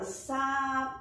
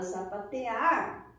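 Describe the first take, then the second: First: "sapatear" drawn out in syllables, open final AR. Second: Said in the usual way. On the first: Shown as a demonstration. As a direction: sound out "sapatear" slowly for a learner. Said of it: "o som sai mais aberto". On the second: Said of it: "quando eu pronuncio".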